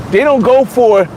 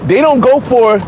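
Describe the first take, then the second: No difference in how they are said.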